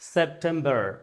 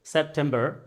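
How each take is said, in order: First: It is said in an American accent. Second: The same.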